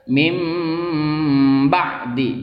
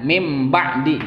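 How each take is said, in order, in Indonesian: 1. Bunyi m ditahan dua ketukan. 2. Bunyi m dipotong pendek. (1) "Harus ditahan dulu dua ketuk"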